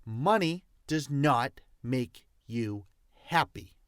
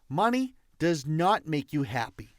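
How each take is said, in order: First: "Money does not make you happy" broken word by word; emphatic repeat. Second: Said in the usual way. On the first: Real, not acted. Coach making sure listeners heard, "Money does not make you happy" spaced out emphatically. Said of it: "Did you hear what I said?".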